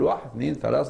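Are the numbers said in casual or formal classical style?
casual. The numbers are said in casual everyday Arabic. This is the ordinary quick way to count. "قال واحد اثنين ثلاثة أربعة خمسة ستة"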